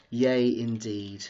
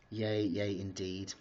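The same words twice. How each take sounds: First: Slow, savoured "yay"; drawn-out yay. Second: Slow, quieter "yay, yay"; soft drawn-out yay. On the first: Vlogger celebrating her new flat, slow drawn-out yay. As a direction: stretch "yay" out, deadpan-happy. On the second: Vlogger savouring the news, slow soft yay. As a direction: repeat "yay" slowly, softer, to herself. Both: Pretend. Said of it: "I'm so excited".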